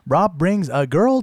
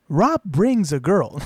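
First: It is spoken in a TikTok text-to-speech voice. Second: It is spoken in a spooky narrator voice. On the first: "Do the TikTok voice" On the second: "I'm really gonna bring out my spooky narrator voice"

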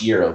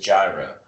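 First: The word gets its Greek pronunciation. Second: The word gets its American pronunciation. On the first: This is how it is said in Europe. "Pronounce it the way they pronounce it in Europe" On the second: This is how it is said at home. "but we know it as a gyro"

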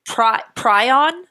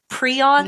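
First: The first syllable does not sound like 'Prius'. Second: The first syllable sounds like the start of 'Prius'. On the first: "we've been saying prion is incorrect" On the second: "it's like Prius"

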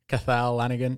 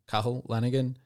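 First: The first name is said like 'Cathal'. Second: The first name is said like 'Cahill'. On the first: The speaker calls it wrong. "Did I pronounce that right? No" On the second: The speaker calls it right. "Second effort was good"

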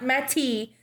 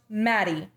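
First: The T is crisp and clearly enunciated. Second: The T is soft, almost like a D. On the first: This is how it would be said in Europe. The speaker calls it wrong. "not Mattie" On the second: This is how it is said locally. The speaker calls it right. "it is pronounced Mattie"

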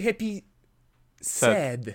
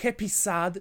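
First: Sad is said like the English word sad. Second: Sad is said like the Polish word for orchard. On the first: It is the English word for unhappy. The speaker calls it right. "tylko mówi się Happy Sad" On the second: It sounds like a word meaning orchard. The speaker calls it wrong. "Nie mówi się Happy Sad"

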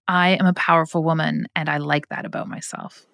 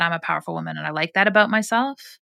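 First: The voice stays level and falls at the end. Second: The voice lifts upward at the end. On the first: The speaker calls it right. "That one's better" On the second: The speaker calls it wrong. "Do it again. No uplift in the voice"

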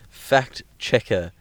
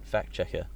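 First: It is said slowly and clearly. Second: It is said quickly and run together. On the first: It clearly means someone who checks facts. The speaker calls it right. "Make sure you say that slowly and express it's a fact checker" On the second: It sounds like a rude insult. The speaker calls it wrong. "Because you keep on saying"

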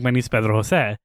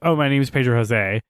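First: The name is said with a Spanish accent. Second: The name is said with an English accent.

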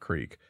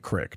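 First: It is said the way Utahns do not say it. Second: It is said the way Utahns say it. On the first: This is not how locals in Utah say it. The speaker calls it wrong. "not Creek" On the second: This is how locals in Utah say it. The speaker calls it right. "Utahns do say Creek"

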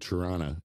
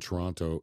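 First: The second T is dropped. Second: The second T is clearly pronounced. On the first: This is how locals say it. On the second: This is how outsiders say it.

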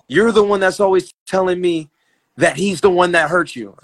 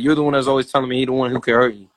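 First: It is spoken in careful, fully sounded-out English. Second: It is spoken in his casual Virginia-Saint Louis dialect.

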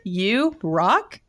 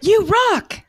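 First: It is said as a questioning rise. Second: It is said as an excited exclamation.

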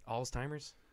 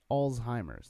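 First: A T sound is heard in the middle. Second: No T sound is heard in the middle. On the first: The speaker calls it wrong. "That's definitely not how you pronounce it" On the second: The speaker calls it right. "no T"

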